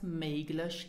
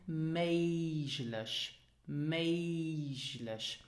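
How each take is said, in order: First: "möglich" with a hard g; MAYG-lish, the g in "möglich" hard as in go; wrong pronunciation. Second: MAYZH-lish, g of "möglich" like French j; correct pronunciation. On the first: Teacher showing students what to avoid, hard-g "möglich". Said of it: "it is not pronounced". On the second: Teacher modelling the right sound for students, zh in "möglich". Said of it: "it is pronounced". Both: Shown as a demonstration.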